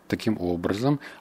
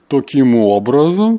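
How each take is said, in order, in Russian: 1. Произнесено просто и естественно. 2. Произнесено наигранно, с преувеличением. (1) "не переигрывая" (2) "а не"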